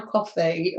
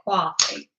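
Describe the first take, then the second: First: Said in the usual way. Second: COFFEE in a badly imitated accent, lower; terrible put-on accent. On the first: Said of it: "or as you say". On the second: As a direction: say COFFEE in a playful, bad attempt at the listener's accent. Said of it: "Terrible accent".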